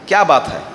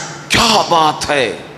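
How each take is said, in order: First: It sounds like a genuine question. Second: It sounds surprised and amazed.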